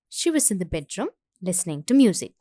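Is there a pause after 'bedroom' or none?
pause. There is a slight pause after 'bedroom'.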